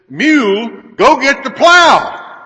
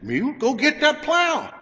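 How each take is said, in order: First: It is yelled very loudly. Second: It is said louder than normal.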